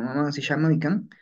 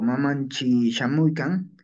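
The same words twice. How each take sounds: First: Mamansi ending in "si"; si variant. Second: Mamanchi ending in "chi"; chi variant. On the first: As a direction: say Mamansi with s, losing the t. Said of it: "Pueden pronunciar como Mamansi". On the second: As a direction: say Mamanchi with a ch before the i. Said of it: "Pueden pronunciar como". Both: Shown as a demonstration.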